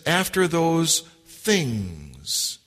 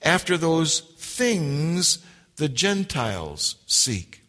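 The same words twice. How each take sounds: First: "After" stressed, read very slowly. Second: "After" stressed, said slowly. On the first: Preacher reading the verse, weighting the word after. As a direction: lean on "After" and draw it out. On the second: Preacher rereading the verse, stressing after. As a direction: give "After" the weight, slow. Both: Shown as a demonstration. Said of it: "I tried to emphasize that word".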